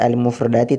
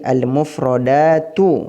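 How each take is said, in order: First: The word ends with an 'i' vowel. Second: The word ends with a 'u' vowel. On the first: The speaker calls it wrong. "tidak boleh dibaca al-mufradati" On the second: The speaker calls it right. "tapi al-mufradatu"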